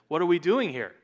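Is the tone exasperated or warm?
exasperated. The tone is stern and exasperated. The speaker is upset with what they find. "they've made an absolute disaster of it"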